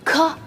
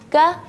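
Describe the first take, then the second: First: The consonant is released with a strong, exaggerated hiss. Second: The consonant is released with a soft, gentle hiss. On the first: The speaker calls it wrong. "Jangan ka, ka, enggak" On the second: The speaker calls it right. "Tapi ka, ka"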